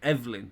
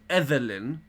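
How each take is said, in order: First: The name is said with two syllables. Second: The name is said with three syllables. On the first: The speaker calls it right. "E V L I N" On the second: The speaker calls it wrong.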